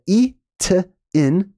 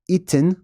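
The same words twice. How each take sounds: First: "Itin" in slow separate syllables, ee - tuh - in; sounded out. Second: "Itin" as one word, EE-tin; joined up. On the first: Teacher reading out the glyphs, Itin syllable by syllable. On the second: Teacher blending the glyph sounds, Itin as one word. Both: Shown as a demonstration.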